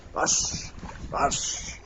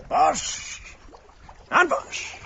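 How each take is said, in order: First: Breathy whispered cue word. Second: Much higher sing-song cue word. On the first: Whispered cue to trick bird. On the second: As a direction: call the cue up high and bright. Bright cue to trick bird. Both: Real, not acted.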